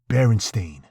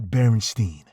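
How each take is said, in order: First: The last syllable rhymes with rain. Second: The last syllable rhymes with wine. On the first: The speaker calls it right. "That's right, Berenstain" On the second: The speaker calls it wrong. "not Berenstein"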